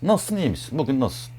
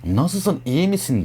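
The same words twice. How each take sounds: First: Softer, gentle "Nasılsın, iyi misin? Bugün nasılsın?"; caring soft ask. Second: Said in the usual way. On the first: Shown as a demonstration. Checking on an upset friend, soft and caring. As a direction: ask it softly, as if you care. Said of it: "Nasıl söylediğinde ilgili".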